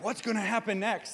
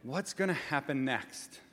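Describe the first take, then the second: First: The question sounds eager and excited. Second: The question sounds anxious and worried. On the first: The asker has resources and looks forward to what comes. "And you have all this energy and all these resources" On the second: The asker is in trouble and fears what comes. "Because your power's been shut off"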